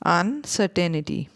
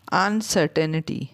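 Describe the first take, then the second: No difference in how they are said.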